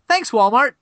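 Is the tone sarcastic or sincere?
sincere. It is said in a sincere, grateful tone. The thanks is genuine gratitude for support.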